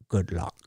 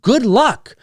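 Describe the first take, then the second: First: It imitates the evil guy in Taken. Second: It is said in his normal voice.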